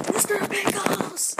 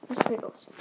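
First: High, slow, drawn-out silly voice. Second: Breathy hushed whisper. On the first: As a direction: sing out the name in a goofy high voice. Excited about lunch treat. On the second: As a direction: drop to a secret whisper. Repeats name hushed. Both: Pretend.

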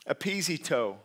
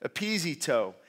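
First: Careful pronunciation of epizito, stress on ZEE; Greek word pronounced. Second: Epizito repeated as eh-pee-ZEE-toh after spelling it; Greek word pronounced. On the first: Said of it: "I'm gonna try to pronounce it". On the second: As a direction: say epizito clearly once more. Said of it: "E P I Z E T O". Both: Shown as a demonstration.

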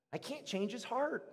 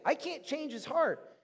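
First: Softer, slightly raised admission; softly stated. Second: Slow, high, emphatic CAN'T; emphatic repeat. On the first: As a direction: say it softly, HEART trailing down. First statement, before emphatic repeat. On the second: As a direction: stretch CAN'T and lift it high. Emphatic repeat after "really can't. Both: Real, not acted.

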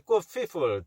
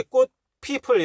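First: "꽃 people" with an F in place of the first P; lips not closing. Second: "꽃 people" with both Ps popped by closed lips; proper P sound. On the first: Teacher showing the common slip in "꽃 people", F for P. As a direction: say "people" as "feeple" in "꽃 people". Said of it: "입술 안 붙는 소리를 자주 냅니다". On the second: Teacher modelling how "꽃 people" should be said, clear Ps. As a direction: say "꽃 people" louder, lips meeting on each P. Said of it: "이렇게 발음해야 되는데". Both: Shown as a demonstration.

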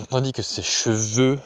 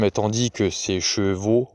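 First: "cheveux" said with the rounded eu ending; corrected word. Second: "chevaux" said with a clear final o sound; misread word. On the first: Narrator corrects herself, "cheveux" with eu ending. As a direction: correct the slip to "cheveux", eu at the end. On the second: Narrator misreads "chevaux" before correcting it. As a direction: slip reading "chevaux" with an open o ending. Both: Real, not acted.

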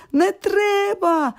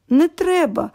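First: High, drawn-out "Не треба!"; shouted refusal. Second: Said in the usual way. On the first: A narrator's reading. Sick boy finally snapping at his friends, shouting. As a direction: cry out slowly, fed up with the visitors. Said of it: "кричить".

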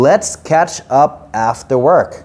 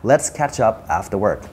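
First: "Let's catch up after work" stretched out very slowly; unhurried teacher demo of the sentence; slow model sentence. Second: 1 softer repeat. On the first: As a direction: model the line slowly for learners. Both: Shown as a demonstration. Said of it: "รวมประโยคครับ".

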